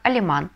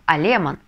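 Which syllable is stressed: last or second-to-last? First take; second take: last; second-to-last. First: The stress is on the last syllable. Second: The stress is on the second-to-last syllable. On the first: The speaker calls it right. "мы на последний слог доставляем ударение" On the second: The speaker calls it wrong. "мы должны ставить ударение на предпоследний слог"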